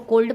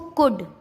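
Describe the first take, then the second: First: An L sound is pronounced before the d. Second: No L sound is pronounced before the d. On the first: The speaker calls it wrong. "क्या इसको कोल्ड पढ़ेंगे, नहीं नहीं नहीं" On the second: The speaker calls it right. "इसका एल silent हो गया"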